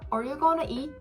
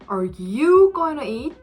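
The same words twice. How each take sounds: First: It sounds like a plain, neutral question. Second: It sounds surprised, with emphasis shifted to another word. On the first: The speaker is simply asking whether the listener will eat it. "너 지금 그거 먹을 거야?" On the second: The speaker can't believe the listener is going to eat it. "너가 지금 그걸 먹는다고?"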